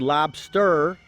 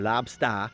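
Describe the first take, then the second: First: The final R sound is clearly pronounced. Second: The final R is dropped, ending in ah. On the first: "if you want to say lobster" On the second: "You take the er off and you put an ah on there"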